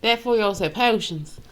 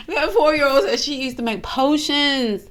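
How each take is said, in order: First: "potions" said in an odd way; oddly said. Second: Said in the usual way. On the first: Real, not acted. Reactor repeats the child's story, "potions" coming out oddly. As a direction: give "potions" an accidental odd twist. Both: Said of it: "Why did I say it like that?".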